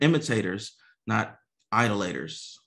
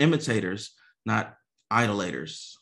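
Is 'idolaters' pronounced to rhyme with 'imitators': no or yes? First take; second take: yes; yes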